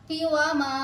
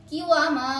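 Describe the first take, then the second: Both takes have the same delivery.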